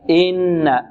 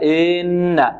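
First: The first vowel is kept short. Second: The first vowel is stretched out long. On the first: The speaker calls it right. "الصحيح ماذا؟" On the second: The speaker calls it wrong. "فبعض الطلب يقول إن علينا ... لا هذا خطأ"

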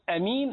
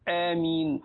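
First: The first vowel is short. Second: The first vowel is held for two counts.

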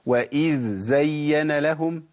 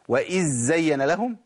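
First: A clear dh is followed by a z. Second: Both consonants are pronounced as z. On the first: The speaker calls it right. "لازم ابين رخاوه الذال وتمكين مخرجها" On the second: The speaker calls it wrong. "في ناس بتجيبها اما زين"

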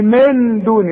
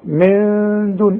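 First: The n is fully pronounced with the tongue. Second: The n is hidden and nasalized for two beats. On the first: The speaker calls it wrong. "اوعى تستعمل لسانك" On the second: The speaker calls it right. "فيبقى النون دي حخفيها وحغنها بمقدار حركتين"

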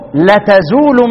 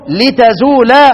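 First: It is said la-tazoolu, with a final u. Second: It is said li-tazoola, with a final a. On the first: This is the reading of one particular reciter. "يبقى الفتح في اللام الاولى والرفع في اللام الثانية" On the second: This is the reading of the other reciters. "ضد الفتح الكسر، طيب وضد الرفع النصب"

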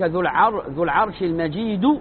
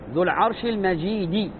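First: The last word ends with a u vowel. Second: The last word ends with an i vowel. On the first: The glory describes the Lord himself. "هذا المجيد وصف للرب ذو" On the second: The glory describes the Throne. "الذي نريده الكسر"

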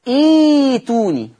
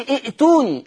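First: The second hamza becomes a long 'ee' vowel. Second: The second hamza is said as a glottal stop. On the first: The speaker calls it right. "اقول ايتوني ... يناسب الكسرة ايه؟ الياء" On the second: The speaker calls it wrong. "فما اقولش ائتوني"

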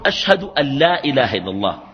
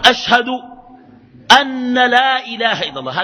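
First: The n of 'an' is single and light. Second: The n of 'an' is doubled and held. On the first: The speaker calls it right. "الأولى مخففة" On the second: The speaker calls it wrong. "ينطقها بأن المثقلة المشددة ... هذا غير صحيح"

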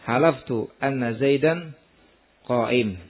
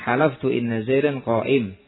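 First: The word after halaftu begins with an a vowel. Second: The word after halaftu begins with an i vowel. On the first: The clause needs an implied omitted subject or predicate. "atau dengan fathahnya" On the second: The clause is a full sentence needing no implied words. "dengan kasra inna"

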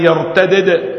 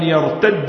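First: The final consonants are pronounced separately. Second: The final consonants are merged into one.

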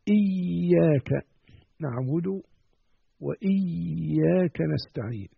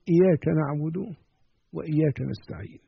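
First: The y sound is held long and doubled. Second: The y sound is short and single. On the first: Only God is worshipped. The speaker calls it right. "لقد أكدت على الشدة الموجودة على الياء" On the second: The sun's light is worshipped. The speaker calls it wrong. "يتساهل فيقول"

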